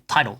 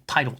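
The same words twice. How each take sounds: The two takes are said the same way.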